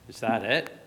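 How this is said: It sounds let down and disappointed.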